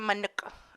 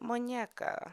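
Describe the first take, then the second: First: It has a plain n and ends in -uka. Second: It has a ny sound and ends in -eca. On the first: Someone else said the name this way. The speaker calls it wrong. "there was one guy yelling at me" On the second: This is how the name is really said. The speaker calls it right. "I said"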